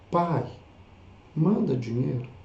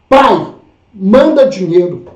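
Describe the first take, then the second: First: It sounds gentle and pleading. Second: It sounds rude and demanding.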